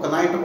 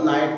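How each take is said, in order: First: The word starts with a k sound before n. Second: The word starts with an n sound, no k. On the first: The speaker calls it wrong. "इतना अशुद्ध उच्चारण था" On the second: The speaker calls it right. "वो नाइट को कनाइट बोला करते थे"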